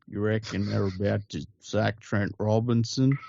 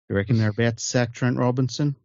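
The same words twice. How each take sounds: First: The sentence is spoken much more slowly. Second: The sentence is spoken at a normal, quicker pace.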